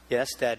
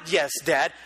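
First: It is said flatly, with no heart. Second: It is said warmly, with real feeling.

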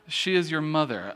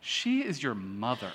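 First: It is read in a plain, neutral tone. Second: It is said in an emphatic, disgusted tone. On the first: The speaker calls it wrong. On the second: The speaker calls it right.

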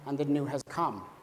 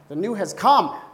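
First: It is read calmly, without excitement. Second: It is said excitedly, as an exclamation.

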